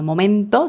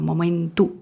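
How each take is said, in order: First: The final vowel is a clear O sound. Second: The final vowel sounds like a U. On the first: "no momento" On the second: "También como una U"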